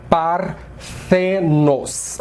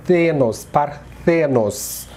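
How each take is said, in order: First: Parthenos drawn out, stress on the syllable the; very slow Greek stress. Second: Thenos stressed, then Parthenos said slowly; Greek stress. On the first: Teacher demonstrates the stressed syllable of Parthenos. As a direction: say Parthenos as par-THE-nos, slowly. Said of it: "Então a gente fala". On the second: Teacher repeats the word, isolating the strong syllable. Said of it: "A sílaba mais forte é". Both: Shown as a demonstration.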